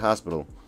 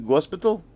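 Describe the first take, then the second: First: The word begins with an H sound. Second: The word begins with a hard G sound. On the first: The speaker calls it right. "instead of hospital" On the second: The speaker calls it wrong. "the Russians can't say hospital. They'll say gospital"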